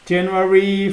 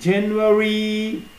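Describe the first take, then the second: First: The word is said at a faster pace. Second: The word is said at a slower pace.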